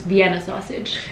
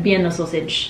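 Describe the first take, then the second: First: "Vienna" said with a clear V, not B. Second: "Vienna" said with a B, like "Bienna". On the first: Correcting own food word, "Vienna" with a V. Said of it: "I didn't say it right, it's". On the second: Listing childhood food, "Vienna" said as "Bienna". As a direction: start "Vienna" on a B sound. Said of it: "I didn't say it right". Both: Shown as a demonstration.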